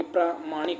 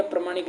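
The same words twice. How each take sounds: First: प्रामाणिक with a long first aa, pram-aa-nik; correct form shown. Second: प्रमाणिक with a short pra, marked wrong; wrong form shown. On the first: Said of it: "प्रामाणिक होता है". (प्रामाणिक लंबे प्रा के साथ, सही रूप) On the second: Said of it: "प्रमाणिक नहीं होता". (प्रमाणिक छोटे प्र के साथ, गलत रूप) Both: Shown as a demonstration.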